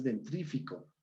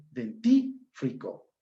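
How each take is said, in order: First: DENTRÍFICO with R after T, none after F; mispronunciation. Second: DENTÍFRICO slowly, R only after F; correct pronunciation. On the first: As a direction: say "dentrífico" softer, as den-TRÍ-fi-co. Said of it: "No es dentrífico". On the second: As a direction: lay out den-TÍ, fri-co. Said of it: "es dentífrico". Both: Shown as a demonstration.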